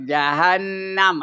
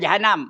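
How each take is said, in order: First: The middle n is doubled with a nasal hold. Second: The middle n is short with no nasal hold. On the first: The speaker calls it right. "Ada dengung pada nun ya. Ada sabdu pada nun tu" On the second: The speaker calls it wrong. "Jangan Jahanam. Orang Melayu Jahanam. Ha, tak betul tu"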